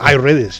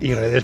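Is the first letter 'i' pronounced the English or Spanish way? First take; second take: English; Spanish. First: The first letter is an English 'eye' sound. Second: The first letter is a Spanish 'ee' vowel. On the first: The name is treated like an Apple product. "Si fuera de, de Apple" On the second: The name is treated as a Spanish word. "es español"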